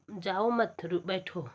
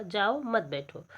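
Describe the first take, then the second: First: जाओ मत run together, break, then बैठो; group "जाओ मत" as one phrase, "बैठो" apart; pause after मत. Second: Slow, जाओ set apart from मत बैठो; group "मत बैठो" as one phrase after a pause. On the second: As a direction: break after "जाओ", then join "मत बैठो". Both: Shown as a demonstration. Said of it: "कंठ के उच्चारण".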